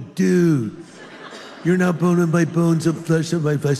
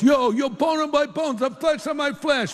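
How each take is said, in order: First: It is said in a California accent. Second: It is said in an East Coast accent.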